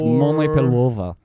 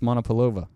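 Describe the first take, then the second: First: It is said in a Russian accent. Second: It is said in a plain accent.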